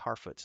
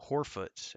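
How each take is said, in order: First: The first vowel sounds like 'ar'. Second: The first vowel sounds like 'or'. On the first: The speaker calls it right. "it's Harfoots" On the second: The speaker calls it wrong. "not Horfoots"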